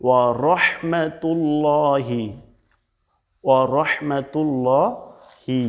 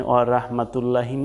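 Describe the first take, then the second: First: "ওয়া রহমাতুল্লাহি" as wa-rohmatul-looohi; heavy ro. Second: Short "ওয়া রাহমাতুল্লাহি" with open "ra" and "lla"; wrong light rah. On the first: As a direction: slowly intone it with a long rounded "llo". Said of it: "কিন্তু না". (ভারী র দিয়ে টেনে উচ্চারণ) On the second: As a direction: say "ওয়া রাহমাতুল্লাহি" unstretched, thin r. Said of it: "এখানে ওয়া রাহমাতুল্লাহি না". (পাতলা রা দিয়ে ভুল উচ্চারণ) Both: Shown as a demonstration.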